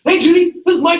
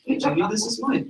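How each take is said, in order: First: The greeting is loud, fast and overexcited. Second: The greeting is calm and low-key. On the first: The caller ignores the other person's mood. The speaker calls it wrong. "I don't want to be like" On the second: The caller mirrors the other person's mood. The speaker calls it right. "I want to match their tone and their tempo"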